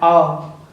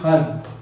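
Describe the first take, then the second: First: Said without the h, American-style. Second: Said with the h sound, Indian-style.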